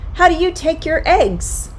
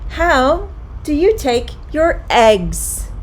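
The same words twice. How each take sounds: First: The sentence is said at a quicker pace. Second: The sentence is said at a slow, careful pace.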